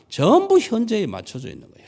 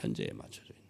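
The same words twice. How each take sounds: First: Said in the usual way. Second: "현재에 맞춰져 있는" breathed much lower and softer; whispered echo. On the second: Shown as a demonstration. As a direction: drop to a whisper to let it sink in. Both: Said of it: "whispered echo".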